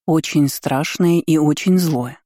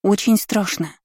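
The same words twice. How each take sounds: First: Slow, очень stressed each time. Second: Put-on squeaky child voice with stress on очень; small high squeak, очень stressed; rubbery high squeaky toy. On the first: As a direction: lean on очень slowly and gravely. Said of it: "подтвердила мать". (мать подтверждает медленно, с ударением на очень) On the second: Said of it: "пискнула девочка". (писклявый детский голос) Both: A narrator's reading.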